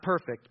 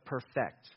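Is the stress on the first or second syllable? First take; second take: first; second. First: The stress is on the first syllable. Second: The stress is on the second syllable. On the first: Flawless, without any fault. "Not perfect" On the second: Making something complete and whole. "but perfect. The idea of perfecting something is to make it complete"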